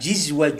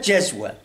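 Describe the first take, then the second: First: The first vowel is i. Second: The first vowel is a. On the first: "Ve gayruhum bi kesriha" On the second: "Asım cezve diye okumuş"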